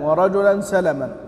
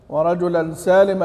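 First: The first vowel of the second word is short. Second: The first vowel of the second word is long. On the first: "قراءة الجمهور بترك المد" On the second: "قرأ المشار لهم بحق بالمد"

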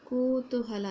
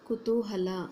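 First: The first vowel is long. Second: The first vowel is short. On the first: The speaker calls it wrong. "ಇಲ್ಲಿ ದೀರ್ಘ ಬರಬಾರ್ದು ಮಕ್ಕಳ" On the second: The speaker calls it right. "ಅದು ಸರಿಯಾದ ಪದ ಏನಾಗುತ್ತೆ"

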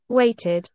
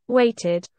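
No difference in how they are said.

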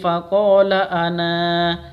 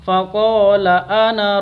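First: The final vowel of ana is drawn out long. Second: The final vowel of ana is kept short. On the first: The reader stops after this word. "kalau berhenti faqala ana, panjang" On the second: The reader carries on to the next word. "Kalau lanjut"

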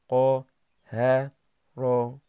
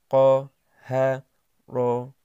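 Both takes have the same delivery.

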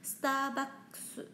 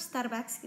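First: It is said with Japanese-style pronunciation. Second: It is said with Indonesian-style pronunciation. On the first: "Kalau di Jepang bacanya Starbucks" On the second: "kalau di Indonesia kan Starbucks"

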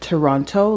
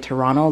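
First: The second T is clearly pronounced. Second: The second T is blended away. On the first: This is how outsiders say the city's name. The speaker calls it wrong. "like they pronounce the second T" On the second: This is how locals say the city's name. The speaker calls it right. "like we kind of blend it together"

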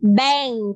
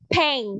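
First: The first sound is a plain, soft b. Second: The first sound is a popped, p-like burst. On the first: The speaker calls it right. "không phải là p mà là bờ bình thường" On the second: The speaker calls it wrong. "Not bank"

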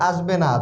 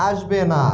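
Both takes have the same delivery.

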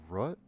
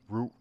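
First: The vowel is short, like in 'rut'. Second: The vowel is long, like in 'root'. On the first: This is how someone else says the name. "He pronounces it Rut?" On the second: This is how the speaker chooses to say the name. "I'm gonna call you Root"

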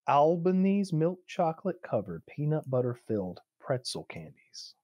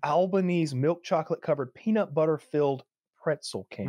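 First: It is said slowly. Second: It is said at a quicker pace.

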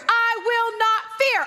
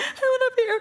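First: It is said boldly and loudly, like Judah. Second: It is said timidly and quietly, like Judah.

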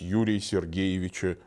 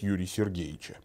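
First: The patronymic is said with every syllable. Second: The patronymic is said with syllables dropped. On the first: The speaker calls it right. "принято произносить полностью" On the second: The speaker calls it wrong. "Нельзя будет сказать"

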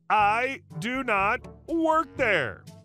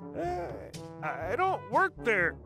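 First: It is said firmly and louder. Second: It is said softly and hesitantly.

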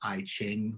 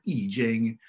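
First: The title is pronounced the English way. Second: The title is pronounced the Chinese way. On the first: The speaker calls it wrong. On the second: The speaker calls it right.

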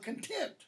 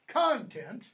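First: The stress is on the second syllable. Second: The stress is on the first syllable. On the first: It refers to happiness or a satisfied attitude. "stress on second syllable" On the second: It refers to the stuff inside something. "stress first syllable"

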